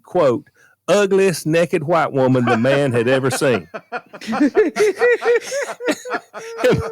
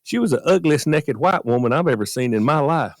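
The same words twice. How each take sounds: First: Slow, laughing punchline; barely holding in the laughter; real laughter cracking the punchline; laughing through it. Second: Said in the usual way. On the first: Real, not acted. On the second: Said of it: "I just gotta be honest with you".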